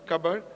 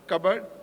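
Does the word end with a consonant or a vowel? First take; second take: consonant; consonant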